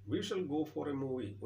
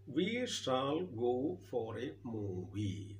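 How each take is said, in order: First: Said in the usual way. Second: Very slow, drawn-out reading. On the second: Shown as a demonstration. Teacher reads the sentence to class, very slow and drawn out. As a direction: stretch each word out for the class.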